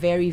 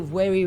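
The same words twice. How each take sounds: First: The word begins with a v sound. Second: The word begins with a w sound. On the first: "not very" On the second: "change V to W. They say very"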